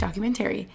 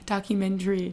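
First: The final syllables are said fully as 'tary'. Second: The final syllables are reduced and run together. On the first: This is the speaker's own, less common way. "in my mind, it's T-A-R-Y, right? So it's like" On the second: This is the common way most people say it. "I guess that's how most people say it"

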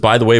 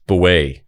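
First: All three words are said out in full. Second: The words are squeezed together into two syllables. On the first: "it was by the way" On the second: "it was like beway"

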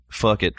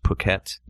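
First: It is read aloud as the English spelling suggests. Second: It is said the way it is natively pronounced. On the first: The speaker calls it wrong. "that's why it's spelled fuck it for us" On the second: The speaker calls it right. "but it's pronounced Phuket"

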